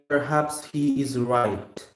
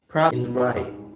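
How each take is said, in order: First: The final t sound is audibly released. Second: The final t sound is held, not released. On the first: The speaker calls it wrong. "Now we're not gonna say" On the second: The speaker calls it right. "We're not sort of releasing the T here"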